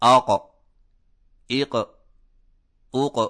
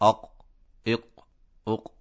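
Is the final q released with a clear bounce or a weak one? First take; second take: clear; weak. First: The final q is released with a clear bounce. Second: The final q is released with a weak bounce. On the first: The speaker calls it right. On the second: The speaker calls it wrong.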